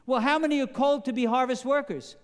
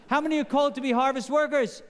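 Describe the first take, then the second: First: Said in the usual way. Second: Higher and faster, with a laugh; quicker and brighter second ask through a laugh; pushing for a louder answer. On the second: Shown as a demonstration. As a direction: ask again, urging the congregation to answer up. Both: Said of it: "You sound pretty weak".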